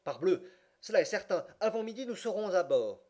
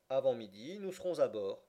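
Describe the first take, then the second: First: Higher, louder exclamation to himself; convinced self-talk. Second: Calm, matter-of-fact gentleman; impassive, simple reply. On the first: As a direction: burst out with sudden certainty. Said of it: "ne put s'empêcher de se dire à lui-même". (exclamation convaincue, plus aiguë et forte) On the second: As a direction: state it simply, without emotion. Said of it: "répondit simplement l'impassible gentleman". (réponse simple et impassible) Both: A narrator's reading.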